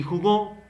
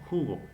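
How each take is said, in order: First: Jugó stressed high on the final GÓ; stress on last syllable. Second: Jugo stressed on JU, falling after; stress on first syllable. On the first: Teacher contrasting it with the noun, jugó stressed on GÓ. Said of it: "hace la diferencia". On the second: Teacher repeating the example, jugo stressed on JU. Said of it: "En ju". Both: Shown as a demonstration.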